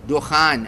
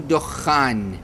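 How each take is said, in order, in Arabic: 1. صوت الخاء قصير ومفرد. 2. يُمدّ صوت الخاء ويُشدّد. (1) "دخان بلا تشديد للخاء" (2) "مو دخان"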